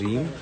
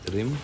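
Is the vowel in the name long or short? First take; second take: long; short. First: The vowel in the name is long. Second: The vowel in the name is short. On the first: The speaker calls it right. "pronounce that as रीम" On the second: The speaker calls it wrong. "not रिम"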